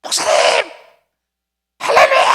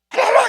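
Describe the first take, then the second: First: Excited caller. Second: High-pitched, louder cry of joy; excited hallelujah. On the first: Church member calling excitedly on phone. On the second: Church member on the phone shouting for joy. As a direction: shout it up high like good news. Pastor repeats the caller's cry. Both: Retold or imitated.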